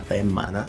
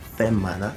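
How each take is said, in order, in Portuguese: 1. A primeira consoante soa suavizada, quase aspirada. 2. A primeira consoante soa suavizada, quase aspirada.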